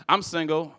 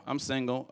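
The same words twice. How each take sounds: First: Said in the usual way. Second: Quiet echo of I'm single; softer, quieter repeat. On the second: Shown as a demonstration. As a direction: drop it softly, almost to self.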